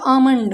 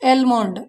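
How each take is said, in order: First: The L sound is left out. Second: The L sound is clearly pronounced. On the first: The speaker calls it right. "होता आमंड" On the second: The speaker calls it wrong. "इसे पढ़ते हैं वैसे बच्चे मैंने देखा है एलमोंड, एलमोंड नहीं होता"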